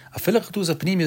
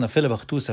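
First: Pitched much higher in Talmud chant; raised sing-song. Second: Said in the usual way. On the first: Shown as a demonstration. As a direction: lift "A viele Bachtus" high, lean on "viele". Repeating the Talmud phrase higher.

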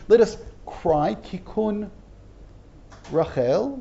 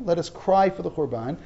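First: Calling out. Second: Said in the usual way. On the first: Retold or imitated. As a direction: rouse them to cry together. Rousing people to cry at night.

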